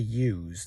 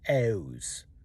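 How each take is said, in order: First: The word starts with a y sound. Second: The word starts with an oo sound. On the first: "people don't say use" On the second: "they say ews"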